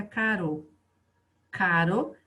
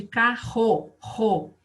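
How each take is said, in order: First: "caro" with one light tapped R; single soft R. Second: "carro" with a strong R, then "ro" repeated alone. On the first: Teacher contrasting one R with two, "caro" lightly tapped. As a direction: say "caro" with a weak R, no force. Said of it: "Se eu colocar um R só". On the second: Teacher showing pupils double R, "carro" pronounced with strong R. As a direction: put force on the R in "carro". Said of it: "precisa pôr uma força". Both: Shown as a demonstration.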